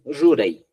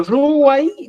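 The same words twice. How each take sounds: First: "ruray" with a second R, no glide; Apurímac pronunciation. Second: "ruway" with a W glide, high and loud; Cusco pronunciation. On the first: Teacher showing the Apurímac form, "ruray" with R. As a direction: tap an R in the middle of "ruray". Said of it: "en Apurímac dicen". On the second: Teacher showing the Cusco form, "ruway" with W. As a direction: lift "ruway" high, stretching the W. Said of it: "decimos en Cusco". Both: Shown as a demonstration.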